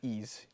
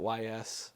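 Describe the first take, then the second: First: The title is said as a single word. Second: The title is spelled out as two letters. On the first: The speaker calls it right. "Sticking with Ys here" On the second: The speaker calls it wrong. "tried to pronounce it, called it Y S"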